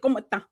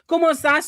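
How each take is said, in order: First: The final s sound is dropped. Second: The final s sound is clearly pronounced.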